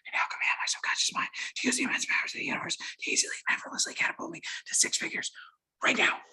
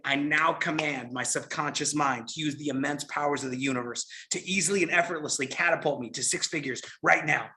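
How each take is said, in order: First: It is whispered with no voiced sound. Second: It is spoken aloud in a normal voice.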